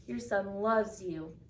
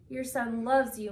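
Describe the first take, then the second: First: Sobbing, slower. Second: Mild sob, stress on loves; a first understated tearful cry of loves; sobbing. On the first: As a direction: draw out the words, grief fading. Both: A narrator's reading. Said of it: "he sobbed".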